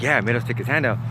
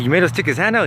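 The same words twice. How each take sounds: First: Matter-of-fact confirmation in usual pitch; straight-faced. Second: Higher, disbelieving check-back; incredulous question. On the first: Cellmate confirms his tall tale, straight-faced. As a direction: imitate a deadpan storyteller confirming it. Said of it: "with a straight face". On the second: Narrator questions cellmate's tall tale, incredulous. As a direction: retell it as an astonished question. Retelling his shocked question. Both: Retold or imitated.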